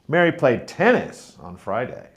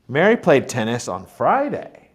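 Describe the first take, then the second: First: The stress is on tennis. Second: The stress is on Friday.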